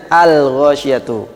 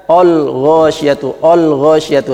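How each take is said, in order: First: Al-ghasyiyatu with a light, thin l; thin correct lam. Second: Al-ghasyiyatu with a heavy, darkened l and o vowel; thick wrong lam. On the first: Teacher shows the correct thin-lam al-ghasyiyatu. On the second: Teacher demonstrates the mistaken heavy al-ghasyiyatu. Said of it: "ini kesalahan". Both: Shown as a demonstration.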